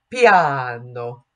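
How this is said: It is said in a careful Italian way. The speaker calls it right. "if we're going to pronounce it correctly"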